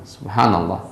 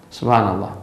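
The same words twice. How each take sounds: The two takes are said the same way.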